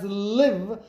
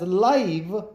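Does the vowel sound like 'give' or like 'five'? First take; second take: give; five. First: The vowel is short, as in 'give'. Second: The vowel is long, as in 'five'. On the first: To reside somewhere. "when pronounced as live means to reside" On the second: Happening in real time. "when pronounced as live means happening in real time"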